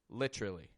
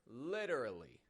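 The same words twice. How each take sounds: First: The word is reduced, with a ch-like middle sound. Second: The word is said fully, clearly and with emphasis. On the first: "when you're not emphasizing it, give it this literally" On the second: "When you're emphasizing the word, get it nice and clear"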